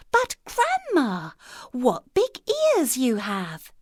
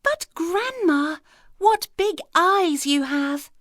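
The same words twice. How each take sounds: First: Put-on much higher, slow child's wonder; the girl marvels at grandma's ears, high and slow; wondering little girl. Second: Put-on much higher, slow child's wonder; a child staring, amazed; the girl marvels at grandma's eyes, high and slow; wondering little girl. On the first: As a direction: draw out Grandma in awe. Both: A narrator's reading.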